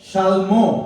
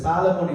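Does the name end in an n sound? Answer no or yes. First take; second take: no; yes. First: The name ends in a vowel, no n. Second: The name ends with an n sound. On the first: The speaker calls it right. "எபிரேய மொழியில நீங்க சொன்னா ஷல்மோ" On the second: The speaker calls it wrong. "சாலமோன் இல்ல"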